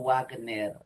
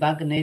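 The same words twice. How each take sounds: First: The W is pronounced like a U sound. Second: The W is pronounced like a B sound. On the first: The speaker calls it wrong. "y no" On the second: The speaker calls it right. "Se dice"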